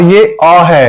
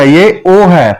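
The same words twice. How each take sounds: First: अ said as an open "aw"; short open vowel. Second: ओ as a rounded "oh"; long O. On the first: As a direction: open up अ, unlike a rounded "oh". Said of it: "short हो जाएगा". (अ को खुले ऑ जैसा) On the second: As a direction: round the lips on ओ. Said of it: "long sound". (गोल, लंबा ओ) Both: Shown as a demonstration.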